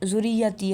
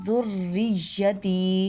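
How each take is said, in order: First: The r sound is single and short. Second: The r sound is doubled and held. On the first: The speaker calls it wrong. "अक्सर लोग अदा कर देते हैं" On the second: The speaker calls it right. "रा को भी तशदीद के साथ अदा करना"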